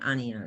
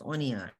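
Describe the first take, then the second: First: The first vowel is an open 'ah' sound. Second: The first vowel is a rounded 'oh' sound. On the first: The speaker calls it wrong. "It's not ania" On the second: The speaker calls it right. "it's onia"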